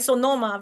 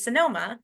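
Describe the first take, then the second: First: Sonoma with full o in the first syllable; Spanish accent. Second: Said in the usual way. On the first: Shown as a demonstration. Lecturer contrasting two pronunciations, Spanish accent. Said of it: "It's a very subtle difference". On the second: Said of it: "versus Sonoma".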